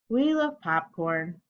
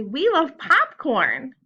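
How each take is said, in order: First: Said in the usual way. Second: Loud, high, stretched exclamation; lot of feeling. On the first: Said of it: "how are we gonna say we love popcorn?". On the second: Shown as a demonstration. Teacher contrasting with a dull reading, excited exclamation. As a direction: cheer it slowly with big excitement. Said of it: "We're gonna say with a lot of feeling".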